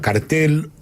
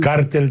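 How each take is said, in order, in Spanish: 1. El acento está en la segunda sílaba. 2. El acento está en la primera sílaba. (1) "Hay gente que le llama cartel" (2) "la palabra correcta es con acento en la A"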